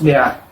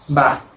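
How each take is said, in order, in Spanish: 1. La consonante y la vocal se dicen como sonidos separados. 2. La consonante y la vocal se unen en una sola sílaba. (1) "no es B A" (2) "es ba"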